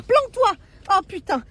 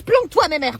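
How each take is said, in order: First: Panicked yelp. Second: Said in the usual way. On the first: Acted. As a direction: shriek planque-toi in mock panic. Panicked hiding.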